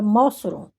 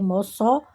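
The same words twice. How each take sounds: First: The stress is on the first syllable. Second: The stress is on the last syllable. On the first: The speaker calls it wrong. "se fosse Mó, seria Mossoró" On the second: The speaker calls it right. "a sílaba tônica é Mossoró"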